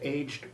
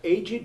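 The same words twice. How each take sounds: First: The ed ending is silent, one syllable only. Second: The ed ending is sounded as a separate syllable. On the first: It says someone grew old. "the silent e being reserved for the verbal forms" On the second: It describes someone who is old. "retains the sounded e"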